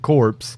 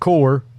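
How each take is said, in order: First: The word ends with a 'ps' sound. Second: The word ends without a 'ps' sound. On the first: The speaker calls it wrong. "I have gotten jumped on before because I pronounced it corpse" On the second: The speaker calls it right. "it is pronounced core"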